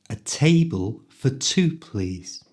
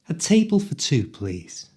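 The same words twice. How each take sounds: First: It is spoken at a moderate speed. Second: It is spoken quickly, at full speed. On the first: "this time a little faster" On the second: "at the speed native people speak"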